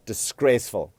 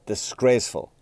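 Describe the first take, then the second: No difference in how they are said.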